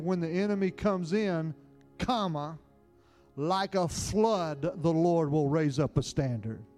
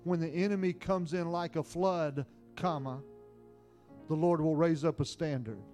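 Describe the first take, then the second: First: The break comes after the words comes in. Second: The break comes after the word flood.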